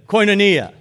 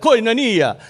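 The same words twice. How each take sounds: First: Louder call for the congregation to repeat "Koinonia"; "Koinonia" called out for everyone to echo; say it together. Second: "Koinonia" with an Italian lilt, like Mamma Mia; "Koinonia" said like an Italian would say it; light Italian "Koinonia" with rolled vowels; Italian accent. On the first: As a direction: lead them in saying "Koinonia". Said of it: "Say it with me". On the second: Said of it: "Say it like an Italian". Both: Shown as a demonstration.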